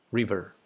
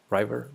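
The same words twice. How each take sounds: First: "River" with a short i, RIV-er; short-i pronunciation. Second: "river" with a long i, RYE-ver; mispronounced river. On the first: Streamer checking an English word, short-i pronunciation. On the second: Streamer unsure of an English word, RYE-ver pronunciation. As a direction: say "river" to rhyme with driver. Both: Shown as a demonstration.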